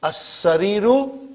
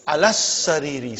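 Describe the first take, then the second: First: "As sariru" slow, doubled s, oo at the end; shadda with -u. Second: "alas sariri" with held double s, ee ending; shadda with -i. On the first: Teacher modelling for students, "As sariru" slowly with doubled s. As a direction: hold the s in "As sariru", rise on the final roo. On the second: Teacher modelling after the preposition, "alas sariri" with doubled s. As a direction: lean on the s in "alas sariri", falling to ree. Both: Shown as a demonstration. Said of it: "how I am pronoun".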